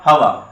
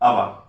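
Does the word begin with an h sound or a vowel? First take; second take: h sound; vowel. First: The word starts with an audible h sound. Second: The word starts directly with a vowel sound. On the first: The speaker calls it wrong. "It ఈస్ not హవా" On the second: The speaker calls it right. "హెచ్ ఈజ్ silent"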